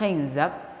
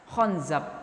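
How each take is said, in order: First: The first vowel is an 'i' sound. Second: The first vowel is an 'a' sound. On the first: This is the well-known form of the name. "dengan kasroh kha" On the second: This is a rare, little-known form of the name. "dengan fathah kha dan zai"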